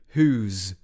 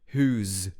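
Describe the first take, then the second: First: The two words merge into one syllable. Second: The same.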